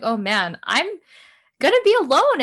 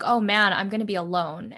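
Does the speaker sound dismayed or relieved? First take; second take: relieved; dismayed. First: The phrase sounds relieved and happy. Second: The phrase sounds dismayed and worried. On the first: Being alone is a welcome freedom. "the same phrase with a different emphasis. ... that's like a relief" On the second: Being alone is something to dread. "a lot of people really focus on like"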